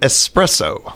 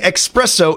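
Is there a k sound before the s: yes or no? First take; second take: no; yes. First: It is said with a plain s sound. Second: It is said with an x sound, like expresso. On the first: The speaker calls it right. "instead of espresso" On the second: The speaker calls it wrong. "saying espresso instead of espresso"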